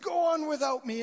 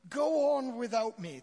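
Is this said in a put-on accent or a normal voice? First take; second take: normal; accent. First: It is said in a normal voice. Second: It is said in a put-on accent.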